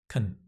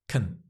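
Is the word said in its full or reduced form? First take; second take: reduced; reduced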